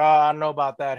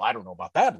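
First: It is spoken in a Southern American accent. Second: It is spoken without a Southern American accent. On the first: "he would have a Southern accent" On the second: "suddenly the Southern accent's gone"

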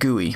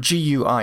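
First: It is pronounced as a single word. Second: It is spelled out letter by letter. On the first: "instead of GUI" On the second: "or GUI"

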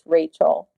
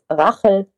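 First: The name is pronounced with English sounds. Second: The name is pronounced with German sounds. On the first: The speaker calls it right. "correcting people and saying, no, it's Rachel" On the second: The speaker calls it wrong. "when you read Rachel in German, it's Rachel"

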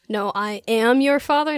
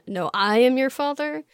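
First: The word 'am' is stressed. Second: The word 'am' is not stressed.

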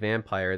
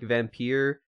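First: It is said like the ordinary English word vampire. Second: It is said with an older, unusual pronunciation. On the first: This is the everyday way of saying the word. "you can also just say it Vampire" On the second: This is the older way of saying the name. "Apparently the old, like, pronunciation is, like, Vampire"

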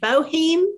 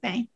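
First: The surname is read as it looks, 'Boheme'. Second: The surname is said as one syllable, 'Bame'. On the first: This is how the spelling suggests it is said. The speaker calls it wrong. "It looks like Diane Floyd Boheme" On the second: This is how the family actually says it. The speaker calls it right. "but we pronounce it Bame"

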